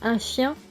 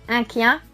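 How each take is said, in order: First: The word begins with an sh sound. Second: The word begins with a k sound. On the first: This is the standard French form. "Le son che" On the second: This is the regional dialect form. "va se dire que"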